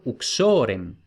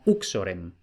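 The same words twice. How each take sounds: First: Uxorem stressed on the middle syllable, u-XO-rem; correct Latin stress. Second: Uxorem stressed on the first syllable, U-xo-rem; wrong Latin stress. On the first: Teacher showing students the right stress on uxorem. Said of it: "si la penúltima tiene un macrón, es larga, lleva el acento". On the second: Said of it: "no uxorem". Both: Shown as a demonstration.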